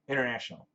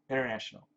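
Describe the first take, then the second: First: Some sounds are dropped in a relaxed form. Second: Some sounds are dropped in a relaxed form.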